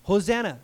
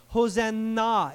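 First: Said in the usual way. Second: Hosanna said slowly, ending on a clear "NAH"; slow teaching "Hosanna", final syllable a full "nah"; last syllable drawn out. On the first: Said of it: "It's that same word". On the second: Shown as a demonstration. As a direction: stretch Hosanna to show the "na" at its end. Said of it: "It's that same word, please".

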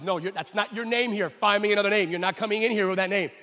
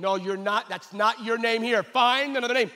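First: Louder, insistent passport officer; stern official. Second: Louder, higher insistent refusal; animated officer. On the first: Passport officer refusing the pastor's name, insistent. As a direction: lay down the law at the counter. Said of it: "And the guy says". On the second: Officer getting animated with Israel, louder refusal. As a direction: get worked up and refuse. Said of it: "getting animate over there and going". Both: Retold or imitated.

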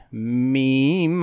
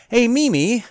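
First: "meme" said as one plain syllable, meem; meme said correctly. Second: "meme" said as two syllables, mee-mee, pitched up; meme said deliberately wrong. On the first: Host correcting his joke pronunciation of "meme", plain meem. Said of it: "I'll say it right this time". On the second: Host jokingly mispronouncing "meme" for listeners, as mee-mee. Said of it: "I want to say it that way". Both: Shown as a demonstration.

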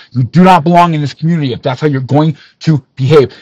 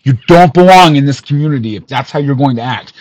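First: "not" hit hard, whole line faster; stress on not. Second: Said in the usual way. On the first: Real, not acted. Repeating the rebuke with "not" stressed. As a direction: punch "not" to drive it home.

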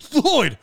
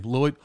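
First: Higher, gushing disbelief on the name; mock amazement. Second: Said in the usual way. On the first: Chatty guy hears stranger's name Lloyd, mock-amazed. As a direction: overdo the delighted surprise.

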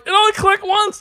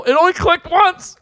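First: Higher and louder, panicked repeat; rising panic. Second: High, loud panicky voice; retelling his own panic, pitched up high; panicky quote. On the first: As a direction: squeal it out in mock terror. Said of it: "I'm like". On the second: Retold panic on a ride. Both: Retold or imitated.

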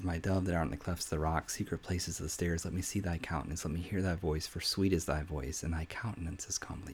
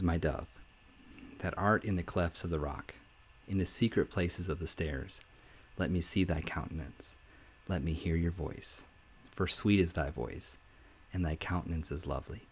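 First: Much softer, fading to a whisper; soft tender. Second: Softer, lower reading of the verse; tender. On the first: King speaking to his bride, hushed and fading to whisper. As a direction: read it hushed and intimate. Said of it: "The king tells her, he says". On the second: King speaking to his bride, soft and tender. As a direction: read it gently like a love note. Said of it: "He says". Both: Retold or imitated.

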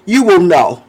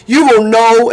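First: Said in the usual way. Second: Laughing emphasis. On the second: Shown as a demonstration. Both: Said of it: "my reply is typically".

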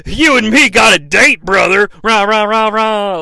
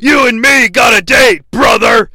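First: Loud Hogan shout then chanted rah rah; Hogan with music. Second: Loud gruff shouted wrestler promo; Hulk Hogan impression. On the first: Retold or imitated. Mocking the promo mixed with entrance music. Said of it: "So it sounds like". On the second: Recapping a wrestling promo, shouting as Hulk Hogan. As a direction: bellow it like Hogan cutting a promo. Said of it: "Hulk Hogan saying".

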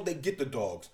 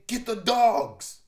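First: Said in the usual way. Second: Very high, loud, slow yell; slow high scream of an order. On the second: Acted. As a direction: bellow for the dogs, dragging it out. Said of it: "The other screaming".

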